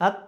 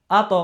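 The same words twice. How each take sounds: First: "আত" closed on the final ত; without qalqalah. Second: "আত" with ত bounced into a short "to"; qalqalah bounce. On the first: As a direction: say "আত" with no echo after ত. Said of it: "না, উচ্চারণ হবে কি?". (ধাক্কা ছাড়া "আত") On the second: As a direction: push off the ত in "আত" as an extra beat. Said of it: "উচ্চারণ হবে কি?". (ধাক্কা দিয়ে "আত") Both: Shown as a demonstration.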